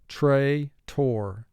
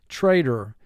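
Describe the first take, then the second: First: The second syllable is a full, clear 'tor'. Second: The second syllable is reduced and weak. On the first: This form helps with spelling the word. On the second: This is the ordinary spoken form.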